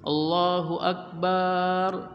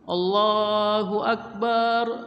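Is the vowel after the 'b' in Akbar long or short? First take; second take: long; long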